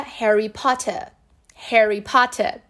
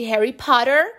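First: "Harry Potter" with a clear T and no final R; British true T. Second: "Harry Potter" with T tapped like R; American flapped T. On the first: Teacher showing how a Briton would say it, true T. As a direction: say "Potter" British style, open final vowel. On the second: Teacher citing the example, American flapped T. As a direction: say "Potter" American style, R-coloured ending. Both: Shown as a demonstration. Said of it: "Um britânico falaria".

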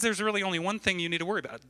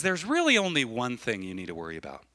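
First: Fast, higher disbelieving quote; mock incredulity, quick and raised; incredulous repeat. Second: Unhurried, settling quoted reassurance; measured, compassionate teaching; calm counsel. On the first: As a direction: rattle it back as if it's crazy. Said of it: "That's crazy, right?". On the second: Retold or imitated. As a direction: start lifted, then let it sink gently. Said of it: "He was compassionate to her".

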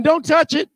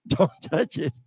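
First: Higher, urgent don't touch it; sharp warning. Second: Much lower and softer don't touch it, in a different voice; low hushed warning. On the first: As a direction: snap out a warning with stress on touch. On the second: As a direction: growl it quietly under your breath. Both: Retold or imitated. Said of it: "he said".

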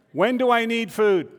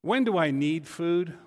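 First: "When do I need food?" higher and louder, leaning on "do"; louder repeat of "When do I need food?". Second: Said in the usual way. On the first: Shown as a demonstration. Pastor re-asks the congregation, louder, stressing "do". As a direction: ask "When do I need food?" again, pressing on "do". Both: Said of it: "repeated question".

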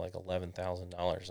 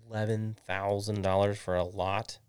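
First: Said in the usual way. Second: Mildly incredulous question, rising at the end; incredulous dad. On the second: Retold or imitated. Dad reacting to his child's lot idea, incredulous. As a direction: imitate dad balking at the price. Acts out dad balking at price.

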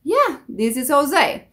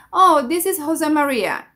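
First: Easy, casual English reply; just go along with it; accepting English pronunciation. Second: Mildly insistent English correction; correcting the caller. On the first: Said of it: "no la corrijas". (respuesta relajada sin corregir) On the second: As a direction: gently set them straight. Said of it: "he escuchado personas que dicen". (corrigiendo al reclutador) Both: Shown as a demonstration.

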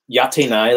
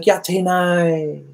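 First: Said in the usual way. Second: Put-on a long, sing-song no from the girl; girl turning him down coyly, dragged out slowly and high; drawn-out refusal. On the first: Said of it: "when they say it". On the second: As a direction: stretch it slowly and high, coy and reluctant. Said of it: "She's like".

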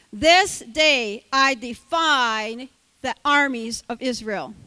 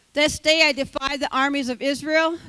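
First: Slow, loud challenge; slow booming defiance. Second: Loud challenge at normal pace; loud defiance. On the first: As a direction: drag out each word of the dare. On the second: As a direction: fling the dare out loud. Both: Acted. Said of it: "the Philistine said".

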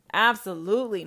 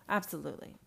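First: Absolutely, loud and punched; loud firm Absolutely; loud, emphatic. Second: Low soft Absolutely, let it drop; low, quiet. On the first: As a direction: belt out Absolutely like a verdict. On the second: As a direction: murmur Absolutely under the breath. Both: Acted. Same word said twice.

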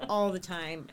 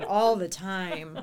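First: Said in the usual way. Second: "all the time" said slowly and louder, stretched; emphatic. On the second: Real, not acted. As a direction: lean hard into "all the time", drawn out.

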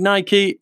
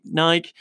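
First: "Nike" said as NY-kee; Nike with two syllables. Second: "Nike" said as NYKE, like bike; Nike with one syllable. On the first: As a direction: give "Nike" a final ee. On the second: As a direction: drop any ee from "Nike". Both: Shown as a demonstration. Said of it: "is it Nike or Nike?".

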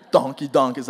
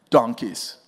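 First: Laughing. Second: Said in the usual way. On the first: Real, not acted. Repeats answer laughing.

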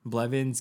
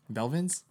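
First: Blevins said BLEV-ins, slow, careful; Blevins right try. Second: Belvins said as BEL-vins, rising unsure; Belvins wrong try. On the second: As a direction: ask Belvins as BEL-vins with a questioning rise. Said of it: "I wanna pronounce this correctly". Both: Shown as a demonstration.

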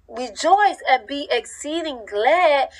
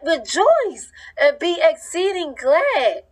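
First: Said in the usual way. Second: High, slow joyful proclamation; joyful proclaiming. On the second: Retold or imitated. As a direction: sing it out like a happy verse. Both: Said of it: "no, you be like".

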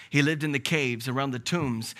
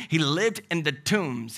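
First: Said in the usual way. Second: Slow, deliberate He lived in the tombs, weight on lived; slow emphasis. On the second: Real, not acted. Repeated phrase, slowed down.

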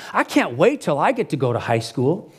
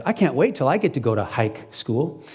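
First: Said in the usual way. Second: Lightly voiced child saying "hike school"; kid's mispronunciation. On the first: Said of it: "a young man who says". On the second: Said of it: "And he actually says".

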